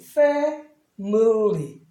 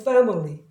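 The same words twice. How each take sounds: First: The word is said slowly and carefully. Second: The word is said quickly and smoothly.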